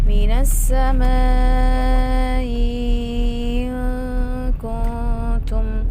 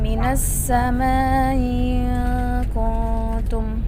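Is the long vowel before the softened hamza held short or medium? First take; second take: medium; short. First: The long vowel is held medium, softened hamza. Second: The long vowel is held short, softened hamza. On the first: "al-ula ma'a tawassut" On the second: "tasil hamzah al-ula ma'al qasr"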